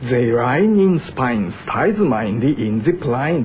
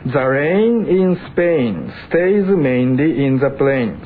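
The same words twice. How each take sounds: First: It is said in a Cockney accent. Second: It is said in standard English pronunciation.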